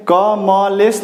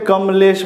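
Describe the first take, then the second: First: क म लेस sounded out as separate syllables "ka ma les"; wrong take, क म लेस broken into three parts with a vowel after म; क म लेस as "ka-ma-les", each syllable apart; wrong split syllables. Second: कमलेश said joined as "kam-lesh", with a short म; right take, कमलेश run together with no vowel after म; कमलेश as one word, "kamlesh"; correct joined form. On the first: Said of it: "नहीं बोलते हैं". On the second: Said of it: "हम क्या बोलते हैं". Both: Shown as a demonstration.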